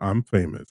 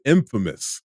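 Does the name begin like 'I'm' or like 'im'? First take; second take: I'm; im. First: The first syllable sounds like the word 'I'm'. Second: The first syllable is a short 'im' sound. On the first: The speaker calls it wrong. "it's not I'm famous" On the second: The speaker calls it right. "I said it correctly"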